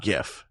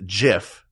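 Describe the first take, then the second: First: "gif" with a hard G as in give. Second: "gif" said like jif; soft G. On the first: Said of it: "not gif". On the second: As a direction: say "gif" with a J sound. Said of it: "he said it's pronounced gif". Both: Shown as a demonstration.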